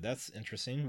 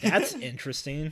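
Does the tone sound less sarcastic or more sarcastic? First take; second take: less sarcastic; more sarcastic. First: It is said with mild sarcasm. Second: It is said with heavy, exaggerated sarcasm.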